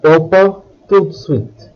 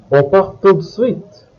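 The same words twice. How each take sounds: First: Said in the usual way. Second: "On part tout de suite" as a question, going up at the end; "On part tout de suite?" with rising tune; question intonation. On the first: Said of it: "turn it into a question". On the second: Shown as a demonstration. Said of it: "making your voice go up".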